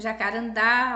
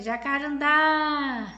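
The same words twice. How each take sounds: First: Said in the usual way. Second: "jacarandá" called as if to someone far off, final "dá" held long and loud; calling out, drawn-out DÁ. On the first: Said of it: "no quadro aí que vocês estão vendo". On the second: Shown as a demonstration. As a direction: stretch and lift the last syllable of "jacarandá". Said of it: "você vai chamar por ela". (chamando de longe, "jacarandá" com o "dá" final alongado e forte)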